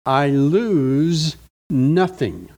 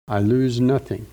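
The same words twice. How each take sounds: First: Slow, each word weighed, lose stressed; emphatic reading. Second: Said in the usual way. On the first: Acted. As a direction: read I lose nothing slowly, leaning on lose. Reading the verse slowly.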